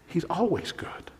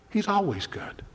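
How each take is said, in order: First: Breathy hush of conviction; whispered reassurance that he's always good. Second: Said in the usual way. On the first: Real, not acted. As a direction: whisper it like a secret truth. Whispered answer to his question.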